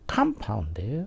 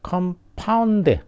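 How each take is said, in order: First: The stress is on the first syllable. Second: The stress is on the second syllable. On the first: It is used as a noun. "명사면은 com compound 앞에를 강하게 발음하는 거죠" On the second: It is used as a verb. "동사면은 compound 그럼 동사가 되죠"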